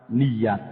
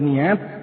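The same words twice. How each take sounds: First: A clear y sound comes before the final vowel. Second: The vowels run together without a clear y. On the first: The speaker calls it right. "Ya di fathah niat" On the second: The speaker calls it wrong. "karena sudah terlalu sering dengar niat"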